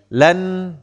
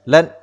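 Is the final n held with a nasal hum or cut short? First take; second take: nasal hum; cut short. First: The final n is held with a nasal hum. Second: The final n is cut short without nasal hum. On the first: The speaker calls it right. "tapi lan" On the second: The speaker calls it wrong. "tidak dibaca lan ya"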